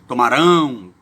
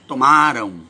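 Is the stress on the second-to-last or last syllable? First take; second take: last; second-to-last. First: The stress is on the last syllable. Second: The stress is on the second-to-last syllable. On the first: The action will happen in the future. "e o outro uma palavra oxítona, que é o do futuro" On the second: The action happened in the past. "um se torna a palavra paroxítona, né, que seria do passado"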